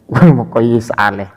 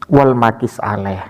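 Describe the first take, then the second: First: The word is pronounced muqayyis, with a doubled y. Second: The word is pronounced maqis, with a long i. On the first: The speaker calls it wrong. "padahal bacanya bukan seperti itu" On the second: The speaker calls it right. "Tapi bukan muqayyis dan muqayyis alaih"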